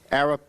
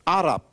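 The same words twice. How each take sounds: First: The word is pronounced the usual English way. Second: The word is pronounced the native Arabic way. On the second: "that's how they pronounce it"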